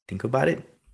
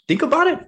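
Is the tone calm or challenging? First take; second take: calm; challenging. First: It sounds calm and gently inviting. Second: It sounds incredulous and challenging. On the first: The speaker invites the prospect to explain more. The speaker calls it right. "a really good mirror would just be like" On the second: The speaker doubts the prospect's reason and pushes back. The speaker calls it wrong. "You can mirror and say"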